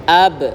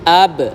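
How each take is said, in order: Both takes have the same delivery.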